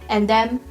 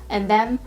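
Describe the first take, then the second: No difference in how they are said.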